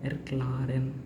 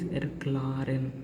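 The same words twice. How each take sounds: No difference in how they are said.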